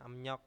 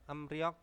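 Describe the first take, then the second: First: The second syllable starts with an N sound. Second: The second syllable starts with an R sound. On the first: "bacanya emnyok ya" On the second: "Emryok tulisannya"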